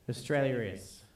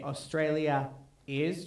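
First: An r sound links the two words. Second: The two words join without an r sound. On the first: The speaker calls it right. "you tend to R it. Like, ... you say Australia is" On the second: The speaker calls it wrong. "you don't say Australia is"

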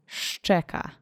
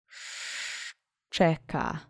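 First: The word is said fast. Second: The word is said slowly. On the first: "One more fast time" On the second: "Let's say szczeka together slowly three times"

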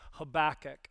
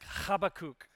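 First: The name begins with a soft plain H. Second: The name begins with a harsh guttural H. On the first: This is the easier everyday pronunciation. "the best sort of way to pronounce it is Habakkuk" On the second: This is the original Hebrew pronunciation. "The actual Hebrew is kind of like, it's like Habakkuk. It's like that guttural H"

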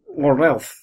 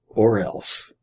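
First: It is said with a babyish lisp. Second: It is said in a normal voice.

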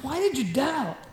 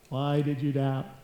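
First: It is said in a stern tone. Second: It is said flatly, without emotion.

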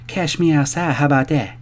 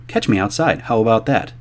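First: It imitates the girl's vernacular dialect. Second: It is said in a standard accent.

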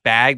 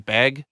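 First: The vowel is the open a of bag. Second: The vowel sounds like the e of beg. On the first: "instead of bag" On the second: "in Montana, a lot of people say ... they say beg"

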